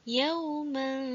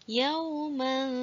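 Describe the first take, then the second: Both takes have the same delivery.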